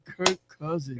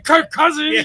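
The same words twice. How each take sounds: First: The name is said in a flat, letdown voice. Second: The name is said with lively, upbeat energy. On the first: The person was disappointed by the news. "He's like Kirk Cousins" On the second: This is how the person did not say it. "He didn't say Kirk Cousins"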